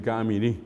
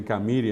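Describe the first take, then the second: First: Camirí stressed on the final syllable, cami-RÍ; Paraguayan stress. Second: Camiri stressed on the second-to-last syllable, ca-MI-ri; Bolivian stress. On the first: Contrasting with Paraguayan usage, camirí with final stress. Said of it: "en vez de decir camirí". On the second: Giving a second Bolivian example, camiri with penultimate stress. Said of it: "tiene el acento llano". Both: Shown as a demonstration.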